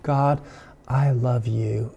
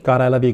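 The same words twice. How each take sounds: First: It is said warmly and with feeling. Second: It is said flatly and mechanically.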